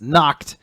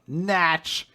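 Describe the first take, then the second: First: "Nacht" with an ah vowel and hard k before the t; German name "Nacht" said as "nahkt"; German pronunciation. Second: "Natch" rhyming with "catch", pitched up; "Natch" with short flat-A vowel and ch; mispronounced name. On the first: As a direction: say "Nacht" like "knocked". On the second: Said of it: "that's not what it is". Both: Shown as a demonstration.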